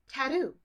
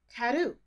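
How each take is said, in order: First: The middle T sounds like a D. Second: The same.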